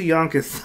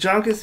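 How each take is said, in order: First: "Yonkers" said with an initial Y sound; Y pronunciation. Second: "Yonkers" said with an English J, as "Jonkers"; J pronunciation. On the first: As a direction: start "Yonkers" with the y of "yes". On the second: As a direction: start "Yonkers" with the j of "jump". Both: Shown as a demonstration. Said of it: "Is it Yonkers or Yonkers?".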